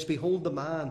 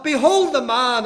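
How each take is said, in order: First: Said in the usual way. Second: Behold the man flung out high and loud; shouted behold. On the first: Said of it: "he says". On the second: Retold or imitated. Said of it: "he was saying something like this".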